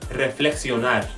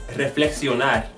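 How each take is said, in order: Both takes have the same delivery.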